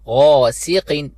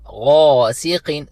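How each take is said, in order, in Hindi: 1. s के बाद का स्वर छोटा रखा जाता है। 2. s के बाद का स्वर छोटा रखा जाता है।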